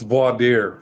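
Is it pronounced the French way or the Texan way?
French. It is pronounced the French way.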